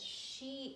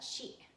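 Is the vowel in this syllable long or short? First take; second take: long; short. First: The vowel is held long. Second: The vowel is cut short. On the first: The speaker calls it right. "you have to elongate the shi because there is double I" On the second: The speaker calls it wrong. "It's not shi"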